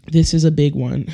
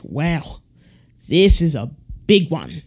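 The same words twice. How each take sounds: First: Lightly Australian, a hint of Steve Irwin; accidentally sounding like a nature host. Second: Lightly Australian nature-host wonder, a hint of Steve Irwin; Steve Irwin impression. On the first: Real, not acted. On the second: Shown as a demonstration. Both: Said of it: "I said that like Steve Irwin".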